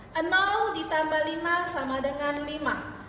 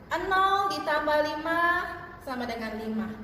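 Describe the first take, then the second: Both takes have the same delivery.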